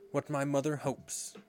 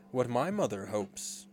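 First: Put-on higher boy's voice; boy answering. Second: Put-on slow, deliberate boy's answer; second boy answering. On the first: Nibs answers the rallying question. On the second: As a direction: draw the answer out resolutely. Twin answers in his turn. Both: A narrator's reading.

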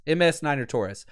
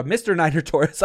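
First: "M S" spelled letter by letter; spelled-out title. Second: "Mister" said in full, as the mistake; wrong title. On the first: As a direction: spell out "M S" clearly to correct. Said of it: "It is M S". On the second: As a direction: reads the name as "Mister Niner Torres". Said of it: "no, it's Miss". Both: Shown as a demonstration.

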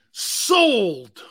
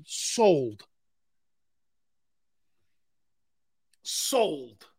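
First: Loud, long "sold" falling steeply; big drawn-out auctioneer's hammer call; emphatic auctioneer call. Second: Drawn-out "sold" with falling pitch; auctioneer's sale call. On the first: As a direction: belt out the final sale. Auctioneer closes the sale again. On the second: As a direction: close the bidding with a long falling call. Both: Acted.

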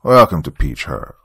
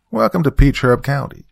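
First: A faint country twang, forced politeness; milder country accent. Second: Put-on strong country accent. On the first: Acted. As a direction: Welcome to Peach Herb in a light Southern accent, louder and curt. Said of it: "His accent wasn't as strong as the Reverend's". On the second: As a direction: Welcome to Peach Herb County in a thick Southern country accent, higher and louder. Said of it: "in a strong country accent".

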